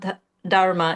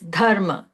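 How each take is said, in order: First: The word begins with an English th sound. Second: The word begins with a breathy aspirated d. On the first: The speaker calls it wrong. "it's not th- dharma" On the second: The speaker calls it right. "it's dharma. the sound the is actually not in English"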